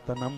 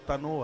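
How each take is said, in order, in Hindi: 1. शब्द m ध्वनि पर खत्म होता है। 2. शब्द o ध्वनि पर खत्म होता है। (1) "ना के ऊपर बिंदु है" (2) "जो पूरा का पूरा गलत है बिल्कुल"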